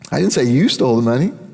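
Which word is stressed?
you. The word you carries the main stress. Someone else stole the money. "He stole the money"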